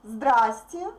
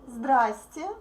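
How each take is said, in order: No difference in how they are said.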